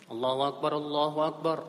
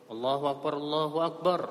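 The two takes are said the same way.

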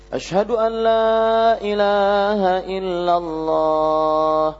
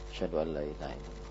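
First: It is said in a loud, raised voice. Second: It is said in a soft, low voice.

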